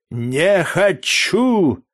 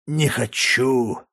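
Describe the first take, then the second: First: Не хочу yelled higher and louder; slurred drunken outburst не хочу; drunken shout. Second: Slow slurred не хочу; blackout drunk. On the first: (пьяный выкрик не хочу) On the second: (пьяное медленное не хочу) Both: A narrator's reading. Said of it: "еле ворочая языком".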